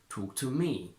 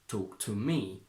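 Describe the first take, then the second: First: There is a strong stress on me. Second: The same.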